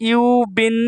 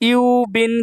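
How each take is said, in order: The two takes are said the same way.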